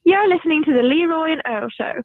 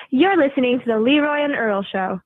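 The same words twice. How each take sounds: First: Milton Keynes English accent. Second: Promo line in an American accent. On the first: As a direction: read the show ident as someone from Milton Keynes, England. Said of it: "now try it in your English accent". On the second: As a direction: read the show ident with an American accent. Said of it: "that was your American accent". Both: Shown as a demonstration.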